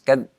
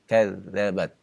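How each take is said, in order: First: The dh sound is pronounced hard and forcefully. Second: The dh sound is pronounced softly and gently. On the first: The speaker calls it wrong. "Kalau terlalu keras" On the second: The speaker calls it right. "perlahan ketika mengucapkannya, ya, jangan terlalu keras"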